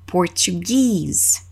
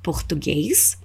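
First: "português" said as English "Portuguese", long stressed "-GUESE"; slow "português" as por-chu-GEEZ, weight on the end; English pronunciation. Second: "Português" said in Portuguese, ending in "-guês"; softer, lower "Português" with an "ês" ending and rising tune; Portuguese pronunciation. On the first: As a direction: model English "português", stretching the final "geez" with a fall. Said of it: "nós damos ênfase no final". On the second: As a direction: say "Português" the Brazilian way, left hanging. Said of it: "Nota a diferença na pronúncia dessas duas palavras".

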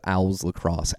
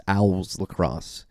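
First: Said in the usual way. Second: Owls said slowly in a Philly accent; drawn-out Philly Owls Lacrosse. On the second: Real, not acted. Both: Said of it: "my Philly accent coming out in that pronunciation".

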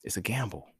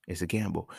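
First: Whispered, no voice at all. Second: Said in the usual way. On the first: Shown as a demonstration. Musing on faith, whispered to himself. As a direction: breathe it out like a secret. Repeats line whispered, then plain.

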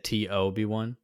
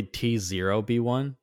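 First: "T O B one", the 0 said as the letter O; name read with O. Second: "T zero B one", the 0 said as the word zero; name read with zero. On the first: Host showing how Toby is pronounced, "T O B one" with an oh. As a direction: say "T O B one" with "oh" for the digit. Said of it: "it's literally T zero B one". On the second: Host explaining Toby's written name, "T zero B one" said with zero. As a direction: spell out "T zero B one" with a full "zero". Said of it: "but it said T O B one". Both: Shown as a demonstration.

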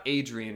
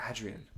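First: "Adrian" said AY-dree-un, long English a; "Adrian" anglicised as AY-dree-un; wrong pronunciation. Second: "Adrian" said AD-ree-an, short a as in cat; "Adrian" the Spanish way, short open a; Spanish pronunciation. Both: Shown as a demonstration. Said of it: "It's not Adrian, it's Adrian".

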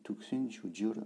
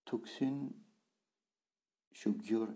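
First: Said in the usual way. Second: Syllable by syllable. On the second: Shown as a demonstration. Teacher splits the phrase slowly.

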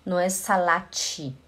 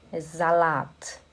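First: Salat with an extra -te ending, salate; the wrong Brazilian way, salate. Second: Slow Salat ending on a clean t, no extra vowel; right Salat. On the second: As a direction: model Salat ending on a crisp t. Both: Shown as a demonstration.

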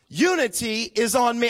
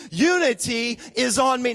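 First: Said in the usual way. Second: Loud, forceful congregation refrain; said like you mean it. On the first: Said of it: "say it out loud with me". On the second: Shown as a demonstration. Pastor leading the church in a shouted refrain. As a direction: shout it out with conviction. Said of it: "Say it like you actually mean it".

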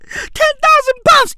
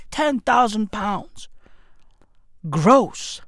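First: High and loud, stunned by the figure; incredulous exclaim. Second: Low, slow and soft, weighing the figure; mock solemn. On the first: Acted. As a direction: blurt the number out in disbelief. Repeating the wage in disbelief. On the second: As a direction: lower the voice and slow down, mock grave. Repeating the wage, mock gravity.

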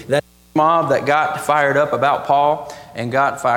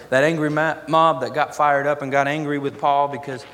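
First: Loud, forceful preaching; real burst of pulpit volume; suddenly louder. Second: Said in the usual way. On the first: Real, not acted. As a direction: push the volume up hard. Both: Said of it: "I got a lot louder there".

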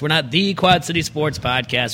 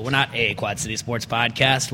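First: "the" said as a full "thee"; stress on "the". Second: "a" said as a full "ay"; stress on "a". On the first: Host builds the podcast slogan, stressing "the". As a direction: lean on "the" as a long "thee". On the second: Host sets up the podcast slogan, stressing "a". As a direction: lean on "a" as a long "ay". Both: Acted.

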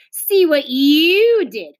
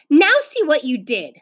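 First: Long, loud, high "you"; slow retort leaning hard on "you"; contradicting, stress on YOU. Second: Higher-pitched schoolboy blame; raised-pitch accusation; accusing. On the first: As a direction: throw the blame back by stretching "you". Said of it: "contradicted Beezus". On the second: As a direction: blame the other child. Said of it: "said Wayne". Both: A narrator's reading.

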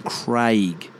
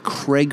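First: CRAIG with long drawn AY; slow Craig rhyming with "vague"; proper pronunciation. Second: CRAIG as "Creg"; short E in the first Craig; American pronunciation. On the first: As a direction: stretch Craig out as "Craayg". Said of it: "out of the name Craig". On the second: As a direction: Craig like "egg". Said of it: "where you get Craig from". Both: Shown as a demonstration.

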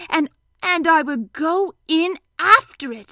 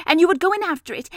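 First: High, loud, drawn-out excitement; excited Pooh. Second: High, loud, quick run-on; eager Piglet. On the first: Pooh jumping into Piglet's honey plan, slow excitement. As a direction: savour each word, slow and excited. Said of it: "said Pooh excitedly". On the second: Piglet hurrying through the trap plan, quick and high. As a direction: rattle off the next step, pitched up. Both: A narrator's reading.

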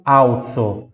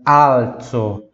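First: "alzo" said as "au-tso", Portuguese style; the L of "alzo" vocalised to a U sound; L turned into U. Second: "alzo" with a true, held L before the z; slow, deliberate "alzo", tongue tip up for the L; clear Italian L. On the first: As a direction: say "alzo" with a U in place of the L. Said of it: "Veja, eu não falo alzo". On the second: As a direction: stretch "alzo" and sound the L fully. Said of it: "eu falo alzo". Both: Shown as a demonstration.

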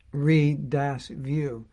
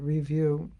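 First: "re-dash view" slow, syllable re- set apart from view; re-view split apart. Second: Said in the usual way. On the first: Shown as a demonstration. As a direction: pull "re-dash view" apart slowly, re then view.

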